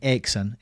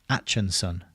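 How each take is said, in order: First: The middle consonant is a hard k sound. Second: The middle consonant is a ch sound. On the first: The speaker calls it wrong. "So I was saying Akeson" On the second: The speaker calls it right. "but it's Atchinson"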